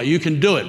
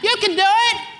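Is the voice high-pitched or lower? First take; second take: lower; high-pitched. First: It is said in a lower, gentler voice. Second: It is said in a screechy, high-pitched voice.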